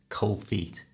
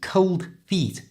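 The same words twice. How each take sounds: First: The D at the end of cold is dropped. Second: The D at the end of cold is pronounced.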